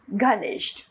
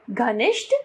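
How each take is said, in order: First: Said in the usual way. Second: घनिष्ठ with 'e' for short i; wrong pronunciation. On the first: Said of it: "इसका शुद्ध रूप". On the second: Shown as a demonstration. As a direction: say घनिष्ठ as ghuh-nesht, rising. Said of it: "अशुद्ध रूप".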